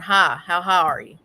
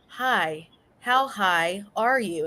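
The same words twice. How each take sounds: First: It is said naturally, in her usual accent. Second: It is said carefully, with deliberate thought.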